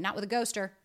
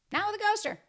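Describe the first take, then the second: First: Said in the usual way. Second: Mock sing-song tag line, pitched way up; sing-song high. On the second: Shown as a demonstration. Closing tag line to viewers, in a much higher sing-song. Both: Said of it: "repeated closing line".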